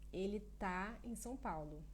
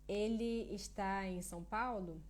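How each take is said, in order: First: The verb is said in a shortened form. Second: The verb is said in its full form.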